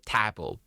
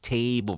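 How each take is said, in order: First: The first vowel is a Mandarin-style substitute. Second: The first vowel is the English 'a' sound. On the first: The speaker calls it wrong. "we don't have the a in Mandarin. So we have a. So we are more like to say table" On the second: The speaker calls it right. "to learn to speak table properly"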